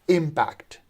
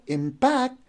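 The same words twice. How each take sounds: First: The stress is on the first syllable. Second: The stress is on the second syllable. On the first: The speaker calls it right. "The first syllable is stressed, so we pronounce it as impact" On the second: The speaker calls it wrong. "If you pronounce it as impact, so then you are stressing the second syllable"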